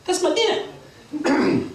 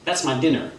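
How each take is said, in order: First: High, drawn-out bird squawk; Berchicken Hawk. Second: Said in the usual way. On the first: Acted. Hawk claims the sparrow as his dinner, high slow squawk. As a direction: claim it slowly in a high, cocky voice. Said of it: "Berchicken Hawk says".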